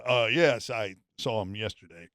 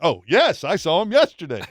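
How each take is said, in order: First: It is said in a flat, unexcited way. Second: It is said in a happy, pleased way.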